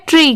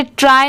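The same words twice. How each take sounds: First: ट्री ending in a long "ee"; correct pronunciation. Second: ट्राई ending in an "eye" sound; wrong pronunciation. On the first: Teacher giving the sound of the ending, correct pronunciation. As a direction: say ट्री like English "tree". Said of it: "इसकी sound क्या आ रही है?". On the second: Teacher showing how not to read the ending, wrong pronunciation. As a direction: say ट्राई like English "try". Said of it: "इसे ट्राई नहीं पढ़ेंगे". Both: Shown as a demonstration.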